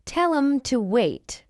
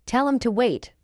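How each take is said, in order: First: Slow, measured "Tell 'em to wait"; slow model. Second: Quick, linked "Tell 'em to wait"; fast English. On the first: Teacher models the phrase for learners first, slowly. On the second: Teacher trains learners' ears, fast. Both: Shown as a demonstration. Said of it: "fast English is not difficult".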